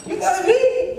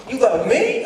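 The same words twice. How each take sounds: First: Very high squealed question; utter disbelief. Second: Raised pitch, disbelieving question; incredulous. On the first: Son floored by father's love, utterly incredulous. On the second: Son hearing father say he loves him, incredulous. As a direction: question it in disbelief, rising at the end. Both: Retold or imitated.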